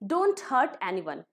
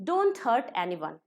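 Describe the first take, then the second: No difference in how they are said.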